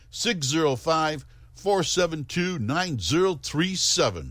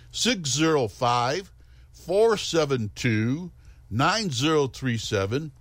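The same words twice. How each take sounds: First: The number is said at normal speed. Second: The number is said more slowly.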